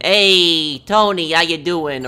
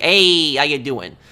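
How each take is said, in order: First: Mock New York accent, Hey punched loud; a light New York guy greeting his buddy. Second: Quick mock New York accent, loud Hey; imitating a Russian-born New Yorker's greeting. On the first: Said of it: "Those are typical, like, New York accents". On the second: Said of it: "and yet he talks like that".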